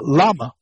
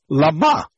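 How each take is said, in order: First: The stress is on the first syllable. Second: The stress is on the last syllable. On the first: "the emphasis is on the first syllable" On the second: "you put it at the end"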